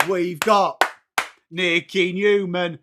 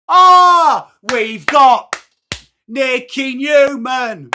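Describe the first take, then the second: First: Said in the usual way. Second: Much higher, louder, slow drawn-out ring announcer call; slow hyped-up name call; announcer hype. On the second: Pretend. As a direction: boom out the name like a stadium MC. Hype call over music.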